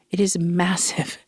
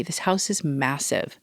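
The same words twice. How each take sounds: First: Breathy stage whisper, slowed down; hushed, awed whisper. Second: Said in the usual way. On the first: Shown as a demonstration. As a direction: let it out as a secret aside. Repeating the line in a whisper.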